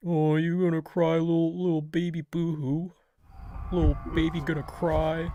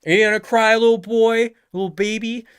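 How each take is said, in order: First: Put-on higher, softer sing-song baby jeer; soft mocking nursery taunt. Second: High mocking baby taunt, louder; sing-song schoolyard jeer. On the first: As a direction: lightly tease a crybaby. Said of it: "all right". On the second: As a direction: tease someone for being about to cry.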